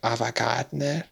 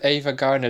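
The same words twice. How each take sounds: First: The name is said with a Spanish accent. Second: The name is said with an English accent. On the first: Locals recognize the name. The speaker calls it right. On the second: Locals do not recognize the name. The speaker calls it wrong.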